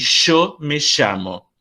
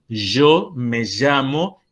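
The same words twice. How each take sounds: First: The y and ll sound like a hissing 'sh'. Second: The y and ll sound like a buzzing 'zh'. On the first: "y también como Sh" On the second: "pronunciada como Y, como en portugués J"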